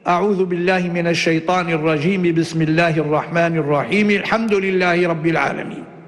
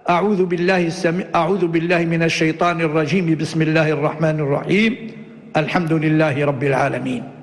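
First: All three phrases run together without any pause. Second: A pause comes only after the second phrase. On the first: "وصل الجميع" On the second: "وصل الأول بالثاني مع الوقف عليه وقطع الثالث"

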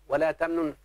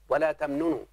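First: The final verb ends with no vowel. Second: The final verb ends with a short u vowel. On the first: This is the form used when pausing. "سكن السكون ده في الوقف" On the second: This is the original form of the verb. "واصلها ولا تمننوا"

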